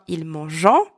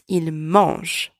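First: The verb ending is pronounced as a nasal vowel. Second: The verb ending is silent and not pronounced. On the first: The speaker calls it wrong. "It's not" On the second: The speaker calls it right. "So you do not pronounce them"

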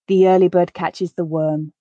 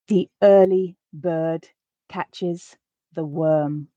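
First: The sentence is read at a natural pace. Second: The sentence is read at a slow pace. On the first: "once at a more natural pace" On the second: "I'll read the sentence once, quite slowly"

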